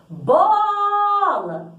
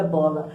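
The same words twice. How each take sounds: First: "Bola" called out high, with a very long BO; chamando no portão. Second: Said in the usual way. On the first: Shown as a demonstration. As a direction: sing out "Bola", holding the stressed O. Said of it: "A gente chama a palavra no portão". ("Bola" chamado bem agudo, esticando o "bo") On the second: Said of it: "Então, por exemplo".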